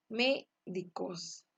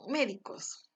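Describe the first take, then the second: First: Médicos slowly, ME set apart and stressed; syllable by syllable. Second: Said in the usual way. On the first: Shown as a demonstration. Teacher separating three syllables, slow Médicos with stressed ME. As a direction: break Médicos up, stressing ME then DI-COS. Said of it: "se separa en tres sílabas". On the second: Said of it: "en médicos".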